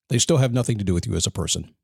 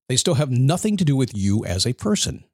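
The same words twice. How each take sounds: First: The sentence is spoken at a fast pace. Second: The sentence is spoken at a slow pace. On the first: "because I talk fast" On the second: "Let me say that slowly"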